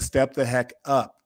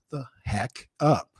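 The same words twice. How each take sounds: First: "step the heck up" repeated slowly, punching "step"; emphatic repeat. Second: "the heck up" drawn out slowly with weight; slow down and land "the heck up" word by word; emphatic heck up. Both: Real, not acted. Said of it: "I don't know if y'all caught".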